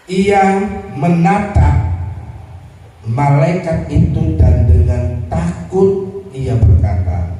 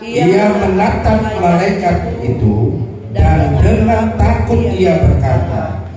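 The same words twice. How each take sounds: First: It is read slowly and deliberately. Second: It is read at a normal, quicker pace.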